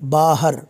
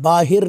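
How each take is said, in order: First: The second syllable has an 'a' vowel. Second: The second syllable has an 'i' vowel. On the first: The speaker calls it right. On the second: The speaker calls it wrong. "बाहिर नहीं है"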